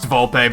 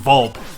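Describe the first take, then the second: First: The name ends with a sounded final vowel. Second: The name ends without the final vowel. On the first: The speaker calls it right. "I know it's pronounced Volpe" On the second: The speaker calls it wrong. "I'm gonna choose to call him Volp"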